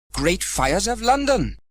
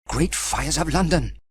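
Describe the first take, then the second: First: Slow, high startled cry; exclaiming. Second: Mild cry. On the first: Sam losing his helmet to the wind, slow high exclamation. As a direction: draw out the alarm. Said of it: "exclaimed Sam". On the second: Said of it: "cried Sam". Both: Acted.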